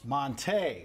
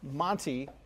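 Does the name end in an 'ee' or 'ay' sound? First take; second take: ay; ee. First: The name ends with an 'ay' sound. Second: The name ends with an 'ee' sound. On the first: This is the name's actual pronunciation. The speaker calls it right. "With the accent aigu" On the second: This is the old, familiar pronunciation. The speaker calls it wrong. "So Montee will now be"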